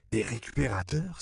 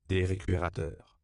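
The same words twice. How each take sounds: First: "Des récupérateurs?" exclaimed with a rising, higher question; surprised cry. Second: Said in the usual way. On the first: A narrator's reading. Missionary echoing the word in surprise, rising "Des récupérateurs?". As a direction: echo "Des récupérateurs?" in astonished disbelief. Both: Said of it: "s'écria Edward Bancho".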